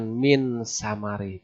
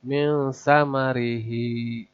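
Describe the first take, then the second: First: "min samari" with a plain, clear n; wrong ikhfa example. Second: "Min samarihi" slow, with the n covered in a nasal hum; correct ikhfa. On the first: Teacher showing the wrong reading, clear n before s. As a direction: say the n of "min" openly, like idhar. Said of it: "Bukan min samari". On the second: Teacher showing the right reading, slow hidden n. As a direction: veil the n of "Min" into the s. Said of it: "suara nun ini ditutup". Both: Shown as a demonstration.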